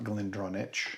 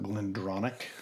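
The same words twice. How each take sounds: First: The ch is said as spelled, not k. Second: The ch is said as a k sound. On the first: The speaker calls it wrong. "It's not Glendronach" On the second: The speaker calls it right. "C H is always pronounced as a K"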